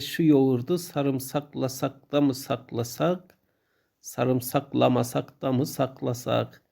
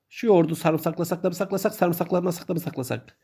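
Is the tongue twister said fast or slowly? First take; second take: slowly; fast. First: The sentence is said at a slow pace. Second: The sentence is said at a fast pace. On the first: The speaker calls it wrong. "Ama böyle söylenmiyordu değil mi? Biraz daha hızlı söylememiz lazım" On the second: The speaker calls it right. "O zaman hızlı söyleyelim"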